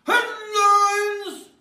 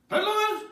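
First: High, louder Headlines! belted as a title; announced headline. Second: High, questioning Headlines? trailing down; unsure headline question. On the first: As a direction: proclaim Headlines! like a show title. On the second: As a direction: ask Headlines? like a guess. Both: Acted.

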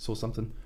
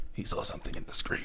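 First: Said in the usual way. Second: Breathy mysterious whisper; spooky whisper. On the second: Pretend. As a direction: whisper it like a ghost story. Dramatic whispered delivery.

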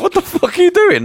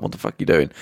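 First: Much higher, louder incredulous cry; outraged disbelief. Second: Breathy, voiceless mock whisper; whispered disbelief. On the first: Retold or imitated. Parents outraged at the crew taking the food back, shrieking. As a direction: shriek it out, appalled. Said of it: "the parents are like". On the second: Refugees baffled at the film crew, whispered. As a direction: hush it out, baffled. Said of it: "the refugees are like".

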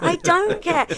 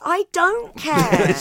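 First: High, loud I don't care again, pressed harder; higher, louder cat voice; mock cat voice. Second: High, loud, slow and drawn-out I don't care; much higher, louder, slower cat voice; mock cat voice. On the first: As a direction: keep the Cat's careless tone. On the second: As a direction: play the Cat sneering without malice. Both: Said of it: "And the cat goes".

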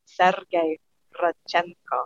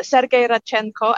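First: "Sergei Radchenko" savoured part by part; "Sergei ... Radchenko", lower and lingered over for pleasure; relishing the name. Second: Said in the usual way. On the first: Shown as a demonstration. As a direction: say "Sergei Radchenko" slowly, pausing between names, falling on each. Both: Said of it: "I like saying his name".

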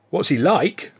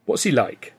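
First: "What's he like?" thrown back with a scoffing snort and a rise on "like". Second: Said in the usual way. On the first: A narrator's reading. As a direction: scoff at "What's he like?" as if the answer were absurd. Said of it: "I snorted".

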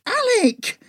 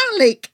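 First: Much higher, louder second call; angry repeated call, pitched way up; furious shout, rising. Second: Loud, sharp call of his name; angry shout for Alec; furious shout. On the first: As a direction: yell it higher, losing patience. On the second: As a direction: yell to break his focus. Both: Acted. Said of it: "I shouted in fury".

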